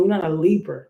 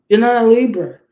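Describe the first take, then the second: First: Said in the usual way. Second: Louder, punched repeat of "You're not a Libra"; loud emphatic repeat. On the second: Shown as a demonstration. Reader insists to a Pisces, in a loud emphatic repeat. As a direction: hammer it home the second time.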